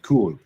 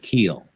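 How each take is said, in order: First: The vowel is a long oo sound. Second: The vowel is a long ee sound. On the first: This is how it is said in Germany. "If you're in Germany, it is pronounced cool" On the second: This is the intended pronunciation. "it's how it's supposed to be pronounced. It's pronounced keel, like keel of a boat"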